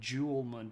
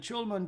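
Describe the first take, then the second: First: The word begins with a soft J sound. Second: The word begins with a CH-like sound. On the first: "if you said Julmun period, people would know what you're talking about" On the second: "It's more of a kind of like a T C H sound"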